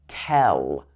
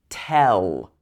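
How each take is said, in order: The two takes are said the same way.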